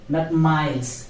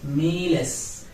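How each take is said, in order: First: The first vowel sounds like eye. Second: The first vowel sounds like ee. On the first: The speaker calls it wrong. "It is not I in Spanish" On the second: The speaker calls it right. "it is E"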